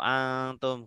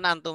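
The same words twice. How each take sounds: First: The n is hidden as a nasalized ikhfa sound. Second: The n is pronounced clearly before the t. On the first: This is Quran recitation with tajwid. "nggak perlu antum gitu" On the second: This is ordinary conversational speech. "kalau percakapan antum aja"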